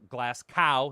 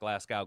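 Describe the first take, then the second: First: The name ends with a hard 'cow' sound. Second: The name ends with a soft 'go' sound. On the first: The speaker calls it right. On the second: The speaker calls it wrong. "not Glasgow"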